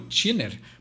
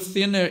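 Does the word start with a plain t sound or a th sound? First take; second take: plain t; th. First: It starts with a plain t sound, tongue behind teeth. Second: It starts with a th sound, tongue between teeth. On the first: "Para não botar a língua nos dentes na hora de pronunciar?" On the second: "alguém não leu thinner"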